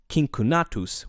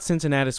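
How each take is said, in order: First: The Cs are pronounced hard, like K. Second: The Cs are pronounced soft, like S. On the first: This is how the name sounded in Latin. "pronounced Cincinnatus with hard Cs" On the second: This is the familiar English form of the name. "its anglicized form with soft Cs"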